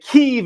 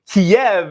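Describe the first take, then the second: First: The name is said the Ukrainian way, Kyiv. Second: The name is said the Russian way, Kiev. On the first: The speaker calls it right. "Kyiv is the way that Ukrainians pronounce it" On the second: The speaker calls it wrong. "Kiev is the way that Russians pronounce it"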